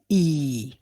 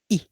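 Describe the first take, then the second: First: The vowel is long. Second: The vowel is short. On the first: "Its long counterpart is E" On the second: "short, we have uh"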